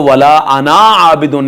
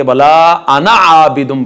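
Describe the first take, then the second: First: अना with stretched final aa; wrong long alif. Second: अना with short final a, into आबिदुम; silent alif. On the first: Teacher showing what not to read, wrong long alif. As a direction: overlengthen अना before आबिदुन. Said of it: "नहीं पढ़ेंगे". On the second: Teacher giving the correct reading, silent alif. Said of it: "अलिफ पढ़ने में नहीं". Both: Shown as a demonstration.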